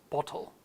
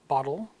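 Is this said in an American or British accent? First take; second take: British; American. First: British accent with a clear t. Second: American accent with a flapped t. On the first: "versus the British bottle" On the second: "bottle in American English, with that slight D sound"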